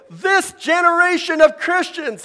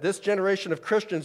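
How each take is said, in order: First: It is said high-pitched, almost yelling. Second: It is said in a normal speaking voice.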